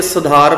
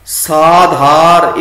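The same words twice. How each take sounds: First: ਸੁਧਾਰ with a quick first syllable, sa-dhaar; short first vowel. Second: ਸਾਧਾਰ very slow, saa-dhaar; long first vowel. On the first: Teacher warns against this reading, ਸੁਧਾਰ begun short. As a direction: keep the start of ਸੁਧਾਰ short. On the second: Teacher models the right reading, ਸਾਧਾਰ with long aa. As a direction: stretch the opening aa of ਸਾਧਾਰ. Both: Shown as a demonstration. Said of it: "ਇੱਥੇ ਸੁਧਾਰ ਪਾਠ ਨਹੀਂ ਕਰਨਾ".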